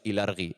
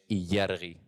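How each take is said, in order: First: The l is a plain l sound. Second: The l is palatal, like Spanish ll. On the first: The speaker calls it wrong. "no es ilargi" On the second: The speaker calls it right. "es illargi"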